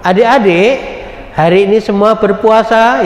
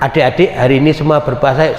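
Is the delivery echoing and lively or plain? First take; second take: echoing; plain. First: It is said with a lively, echoing delivery. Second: It is said in a plain delivery without echo. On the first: "pakai gema kalau anak-anak ya" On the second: "kita pakai tanpa gema"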